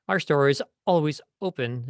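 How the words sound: Small breaks come before the vowel-initial words. The speaker calls it wrong. "The wrong way"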